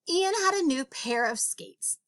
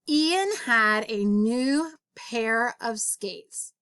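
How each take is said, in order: First: The sentence is read at a fast pace. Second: The sentence is read at a slow pace. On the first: "I'm going to read it quickly" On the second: "I'm going to read it slowly this time"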